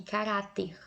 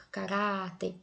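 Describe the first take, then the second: First: Said in the usual way. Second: "caráter" with the middle "rá" held longer; stress on RÁ. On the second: Shown as a demonstration. Teacher showing students the strong syllable, "caráter" stressed on RÁ. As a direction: stretch the "rá" in "caráter". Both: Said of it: "O ra é mais forte".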